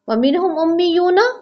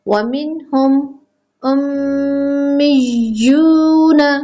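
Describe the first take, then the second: First: The m sound is short, without a held nasal hum. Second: The m sound is held with a long nasal hum. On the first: The speaker calls it wrong. "नहीं" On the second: The speaker calls it right. "हम यहाँ पे मीम पर गुना करेंगे"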